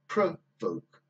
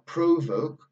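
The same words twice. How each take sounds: First: The first vowel is a reduced uh sound. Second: The first vowel is a full vowel. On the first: The speaker calls it right. "but provoke. We've got that same sound again, uh" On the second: The speaker calls it wrong. "It would actually be not provoke"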